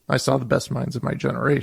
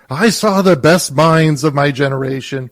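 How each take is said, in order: First: It is delivered plainly, as an ordinary reading. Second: It is delivered grandly, as a weighty moment. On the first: It is just a new poem being tried out. "He presents it as a poem he's trodden out for the first time" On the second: The reading is treated as a historic moment. "he doesn't present it as Franco did, which is, this is an important moment"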